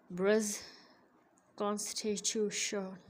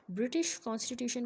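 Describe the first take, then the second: First: ब्रिटिश कॉन्स्टिट्यूशन slurred, slow, consonants smeared; slurred speech demo. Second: Said in the usual way. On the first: Shown as a demonstration. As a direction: mush ब्रिटिश into "brəz" and drag कॉन्स्टिट्यूशन imprecisely. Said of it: "इसमें pronunciation इम्प्रिसाइज होगी". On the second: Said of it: "ब्रिटिश कॉन्स्टिट्यूशन को कैसे बोलेगा".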